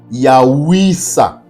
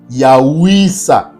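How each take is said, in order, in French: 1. Les deux parties se fondent en un seul mot. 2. Les deux parties se fondent en un seul mot.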